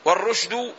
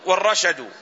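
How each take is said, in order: First: والرشد said war-rushdu, u then no vowel on the sh; والرشد as rush-du after the article; first variant vowelling. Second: والرشد said war-rashadu, a after both r and sh; والرشد as ra-sha-du after the article; second variant vowelling. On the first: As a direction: close the first syllable of والرشد on sh. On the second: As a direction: open both syllables of والرشد with short a. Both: Shown as a demonstration. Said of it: "لغتان في الكلمة".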